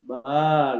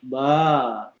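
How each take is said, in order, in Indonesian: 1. Vokal pada "ba" ditahan selama tiga harakat. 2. Vokal pada "ba" ditahan selama tiga harakat.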